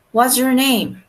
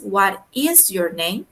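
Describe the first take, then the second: First: "What's" run together as one word; contracted "What's". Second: "is" pulled out as its own slow word; uncontracted "is". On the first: Teacher models the question for learners, contracted "What's". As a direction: say "What's" as a single syllable, is merged in. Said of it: "tiene una apóstrofe S". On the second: Teacher unpacks the contraction for learners, stress on "is". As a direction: slowly separate "What is", leaning on "is". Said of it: "ahí es un is". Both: Shown as a demonstration.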